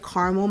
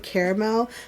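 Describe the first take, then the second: First: The word is said in a shortened form. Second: The word is said fully, as spelled. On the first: This is how the speaker has always said it. "I've always said caramel my whole life" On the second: This is how the speaker's friends say it. "All of them say caramel"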